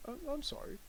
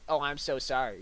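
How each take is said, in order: First: Dismissive apology. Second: Sincere apology. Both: Shown as a demonstration. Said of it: "You're saying".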